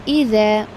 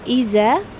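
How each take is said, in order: First: The middle consonant is a soft th sound. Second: The middle consonant is a buzzing z sound. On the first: The speaker calls it right. "it is iza. Your tongue, the front part of it, ... touch the upper jaws of the teeth" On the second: The speaker calls it wrong. "It is not iza"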